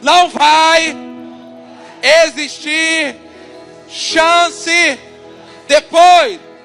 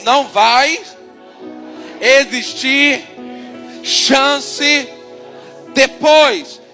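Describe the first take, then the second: First: It is said louder and stronger. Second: It is said at normal volume.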